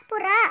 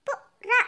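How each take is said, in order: First: Said in the usual way. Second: புறா split into two short separate syllables; letter by letter. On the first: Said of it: "உச்சரித்து வாசிங்க". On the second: Shown as a demonstration. Pupil reads aloud for the teacher, புறா syllable by syllable. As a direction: sound out புறா with a gap after the first syllable. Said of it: "ஒவ்வொரு எழுத்தா உச்சரித்து வாசிங்க".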